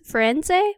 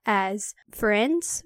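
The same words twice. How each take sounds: First: "Firenze" higher and louder as /fɛnzeɪ/, rising; questioning "Firenze" ending in -ay; raised unsure "Firenze?"; unsure pronunciation. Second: "Firenze" said slowly as /fɹɛndz/ with a rise; tentative questioning "Firenze"; slow uncertain "Firenze"; unsure pronunciation. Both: Shown as a demonstration. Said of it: "I've never known how to pronounce his name".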